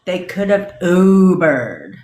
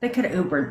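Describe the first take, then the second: First: Slow, louder drawn-out Ubered; sarcastic repeat of the excuse; mock drawl. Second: Said in the usual way. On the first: Shown as a demonstration. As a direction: stretch Ubered out in disbelief.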